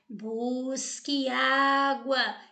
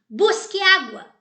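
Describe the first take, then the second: First: It is said as gentle advice. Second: It is said as a firm command.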